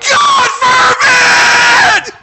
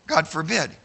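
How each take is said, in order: First: God forbid shouted very high and loud, slowly; screamed to the heavens. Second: Said in the usual way. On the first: Shown as a demonstration. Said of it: "What it says is". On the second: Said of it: "it doesn't just say".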